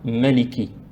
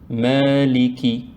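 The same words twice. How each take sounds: First: The first vowel is kept short. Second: The first vowel is lengthened. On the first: The speaker calls it wrong. "On ne dit pas" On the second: The speaker calls it right. "il y a le petit alif. On dit"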